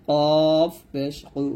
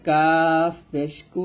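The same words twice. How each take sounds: First: Drawn-out কফ, heavy k from the back with an o colour; thick consonant. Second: Drawn-out কাফ with a light k; thin consonant. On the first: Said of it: "এটা হবে মোটা করে". (মোটা করে কফ পেশ কু) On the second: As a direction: keep কু thin, a clear u. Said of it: "কাফ পাতলা হবে". (পাতলা করে কাফ পেশ কু) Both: Shown as a demonstration.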